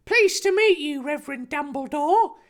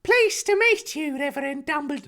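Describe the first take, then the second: First: Put-on high eager boy's voice; enthusiastic Harry. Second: High prim woman's voice; Petunia voice. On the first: Harry greeting the Reverend, eager high voice. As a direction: greet him brightly, pitched up. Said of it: "Harry replied enthusiastically". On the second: Acted. Petunia greeting Dumbledore, wrong high voice. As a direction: greet him primly, much higher. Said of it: "No, that's once again, that's Petunia".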